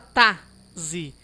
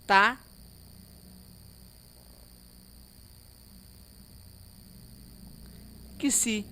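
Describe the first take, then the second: First: The x is said as a z sound. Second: The x is said as a k plus s. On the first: The speaker calls it wrong. "Não fala tá, zi" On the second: The speaker calls it right. "É assim que nós pronunciamos"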